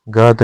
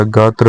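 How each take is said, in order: First: गात ending on plain t; wrong form. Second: गात्र ending in tra; correct form. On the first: Teacher showing learners the mistake, गात without r. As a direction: say गात as gaat. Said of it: "नहीं होता". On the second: Teacher giving the correction, गात्र with r. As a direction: say गात्र as gaat-ra. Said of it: "होता है". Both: Shown as a demonstration.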